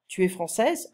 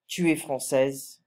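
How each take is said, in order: First: The voice rises at the end, a question. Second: The voice falls at the end, a statement.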